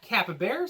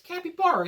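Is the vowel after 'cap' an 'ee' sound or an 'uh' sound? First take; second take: uh; ee. First: The second syllable has an 'uh' vowel. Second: The second syllable has an 'ee' vowel. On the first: The speaker calls it wrong. "It's not capybara" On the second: The speaker calls it right. "There's a Y in it. There's no A in the middle. It's capybara"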